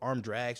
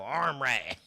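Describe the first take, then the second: First: The d sound in drags is pronounced. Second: The d sound in drags is dropped. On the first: "What arm drags?" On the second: "you got to drop a certain letter off of the wrestling move"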